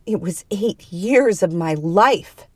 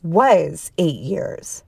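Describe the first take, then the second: First: Slow, growled indignation; growled anger. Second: "Was" drawn out slowly and stressed. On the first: Woman protesting to the other, slow angry growl. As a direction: growl it out, slowly, with feeling. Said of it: "she growled". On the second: The other correcting the woman, long stressed "Was". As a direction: lean hard and long on "Was". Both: A narrator's reading.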